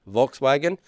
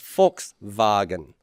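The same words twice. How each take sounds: First: The word is said with English sounds. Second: The word is said with German sounds. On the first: "in English" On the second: "In German, you would pronounce that as"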